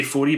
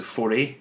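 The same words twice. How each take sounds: First: Foree ending in an "ee" sound; own pronunciation. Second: Foree ending in an "ay" sound; alternative pronunciation. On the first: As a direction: say Foree to rhyme with "story". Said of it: "I would say Foree". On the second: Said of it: "I heard somebody pronounce it Foree". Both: Shown as a demonstration.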